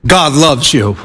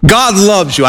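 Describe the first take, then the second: First: Lightly imitating a preacher's low, earnest "God loves you"; a hint of Billy Graham, dropped lower and tender; Billy Graham imitation. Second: Lightly imitating a preacher, the repeat lifted up in pitch; a hint of Billy Graham pressing the point home; Billy Graham imitation. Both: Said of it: "my best imitation of Billy Graham. It's terrible".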